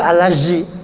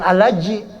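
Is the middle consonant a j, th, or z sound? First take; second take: z; j. First: The middle consonant is a z sound. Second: The middle consonant is a j sound. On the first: "apalagi alazi. Zai salah" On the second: "Jangan alaji. Kalau alaji salah"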